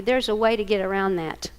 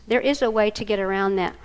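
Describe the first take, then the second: First: Said in the usual way. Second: "is" spelled out in full and leaned on; firm "There is a way", weight on "is"; stress on is. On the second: Shown as a demonstration. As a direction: hit "is" to insist it can be done.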